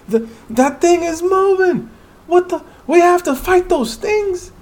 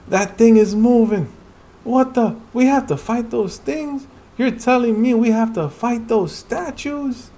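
First: Much higher, louder panicked voice; frightened hunter shouting at moving statues; terrified cry. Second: Higher, louder but less frantic; alarmed character voice. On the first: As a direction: shriek as the statues come alive. Hunter sees the statues move. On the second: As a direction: reread it with disbelief. Same lines reread. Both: Acted.

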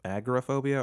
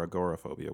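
First: "Agoraphobia" as AG-ruh-PHOBIA; variant pronunciation. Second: Said in the usual way. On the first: Shown as a demonstration. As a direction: stress the opening AG in "Agoraphobia", short second syllable. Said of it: "that's just Southern mispronunciation". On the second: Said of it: "I've never heard it pronounced".

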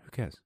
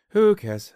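First: Said in the usual way. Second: Very high, very loud squeal; mock shout. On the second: Brushing off his own food list, shrieked high and loud. Mock outburst after a laugh.

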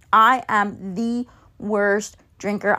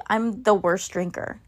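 First: Slow, weighty "I am the worst drinker" with "am" leaned on; stress on am. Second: Said in the usual way. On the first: Shown as a demonstration. Admitting to friends she can't drink, slow emphatic stress. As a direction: drag it out and hit "am".

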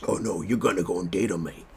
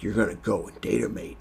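First: Second go at a badly faked Australian accent; hammed-up, unconvincing Australian imitation; terrible Australian accent. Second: Put-on first rough stab at an Australian accent; unconvincing Aussie imitation; terrible Australian accent. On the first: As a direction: try harder at Aussie, still botching it. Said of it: "Is that, that sounds terrible". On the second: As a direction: imitate Butcher with a badly faked Australian accent. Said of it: "That was a terrible Australian accent".

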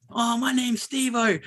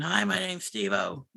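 First: Higher, slow, hammed-up call to the screen; ape her attention-seeking shout-out, drawn out. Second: Softer, slow, put-on voice of the girl; a quiet, drawn-out sneering imitation. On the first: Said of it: "the same girl would just go".

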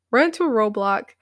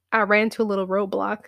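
First: Said in the usual way. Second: Fast, laughing through the words. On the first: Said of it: "repeated after laughing". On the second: Real, not acted. Laughs at roadblock.

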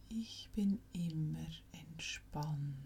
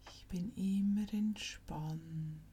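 The two takes are said the same way.

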